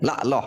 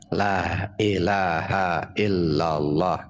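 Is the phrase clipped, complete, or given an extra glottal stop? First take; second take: clipped; complete. First: Sounds are dropped, shortening the phrase. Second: The phrase is said fully, nothing added or dropped. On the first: The speaker calls it wrong. "Dah dikurangin" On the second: The speaker calls it right. "Kalimat sempurna"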